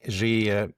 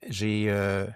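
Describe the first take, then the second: No difference in how they are said.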